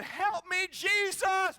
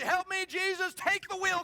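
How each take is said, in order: First: Loud, high cry to Jesus; mock scream for help. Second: Loud, high plea to Jesus; mock panicked prayer. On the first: Wife on icy highway, mock screaming for help. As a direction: yell it like she's skidding on ice. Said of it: "she's screaming". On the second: Wife sliding on the ice, loud mock plea. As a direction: cry out like losing control of the car. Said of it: "kind of what you see".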